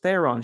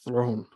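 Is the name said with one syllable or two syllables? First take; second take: two; one. First: The name is said with two syllables. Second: The name is said as one syllable. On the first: "I thought it was Theron" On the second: "she said it with an accent and it sounds like Throne"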